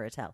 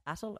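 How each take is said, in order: First: "Attell" with stress on TELL; "Attell" with weak start, full final "tell"; second-syllable stress. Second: "Attel" with stress on the AT; "Attel" rhyming with battle; first-syllable stress. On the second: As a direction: say "Attel" as AT-ul, weak ending. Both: Shown as a demonstration. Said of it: "Or Attell".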